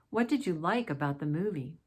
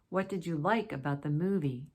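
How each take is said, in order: Both takes have the same delivery.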